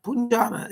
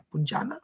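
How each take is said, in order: First: "Punjana" said once with a falling tune, trying the name out; tentative statement. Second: "Punjana?" asked with a rising tune, checking the name; questioning rise. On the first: Reading a viewer's tea name aloud, tentative fall. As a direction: read the name "Punjana" off the chat with a settling fall. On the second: Unsure of a viewer's tea name, questioning rise. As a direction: lift the end of "Punjana" as a question. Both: Shown as a demonstration.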